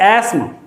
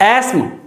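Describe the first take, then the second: The two takes are said the same way.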